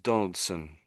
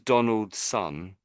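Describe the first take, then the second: First: It is said as one word, ending reduced. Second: It is said as two separate full words. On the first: The speaker calls it right. "It sort of gets said more as Donaldson" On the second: The speaker calls it wrong. "we don't say it as Donald's son"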